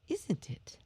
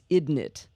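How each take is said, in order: First: The words are pronounced clearly with every sound. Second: The words are pronounced in a reduced, less clear way. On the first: "do you clearly say isn't it?" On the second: "my whole family says isn't it"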